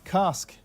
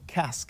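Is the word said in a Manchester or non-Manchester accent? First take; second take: non-Manchester; Manchester. First: It is said without a Manchester accent. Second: It is said with a Manchester accent.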